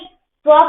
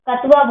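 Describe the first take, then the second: First: The k joins the t with no vowel. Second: A full vowel separates the k and t. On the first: The speaker calls it right. "ये कतवा नहीं होता है, ये स्व प्रत्यय होता है" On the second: The speaker calls it wrong. "ये कई लोग इसको गलत पढ़ते हैं, कतवा बोलते हैं"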